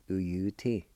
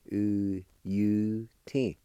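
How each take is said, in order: First: Said in the usual way. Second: "U U T" slow, each syllable stretched; sounded out. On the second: Shown as a demonstration. Teacher repeating giblet for learners, slowly sounded out. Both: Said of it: "is pronounced like this".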